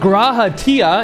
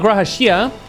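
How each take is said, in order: First: The second word begins with a 't' sound. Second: The second word begins with a 'sh' sound. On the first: The speaker calls it right. "because there's Graha Tia" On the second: The speaker calls it wrong. "It's not Graha Shia"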